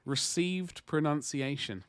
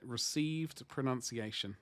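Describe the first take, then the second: First: Each syllable of "Received pronunciation" spelled out slow; received pronunciation said slowly. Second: "Received pronunciation" murmured slow, satisfied; quiet slow "Received pronunciation" as the answer; softer, settled repeat of "Received pronunciation". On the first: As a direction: land "Received pronunciation" deliberately, slow and clear. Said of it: "That's what it was called". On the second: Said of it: "That was it". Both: Shown as a demonstration.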